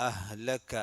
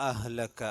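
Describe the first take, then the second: Both takes have the same delivery.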